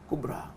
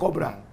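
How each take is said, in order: First: The first vowel is u. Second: The first vowel is o. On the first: The speaker calls it right. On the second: The speaker calls it wrong.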